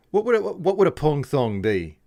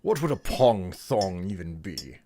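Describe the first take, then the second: First: Put-on posh British accent. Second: Put-on British accent. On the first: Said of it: "come off as a little bit like an Aussie instead". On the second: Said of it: "various British accents".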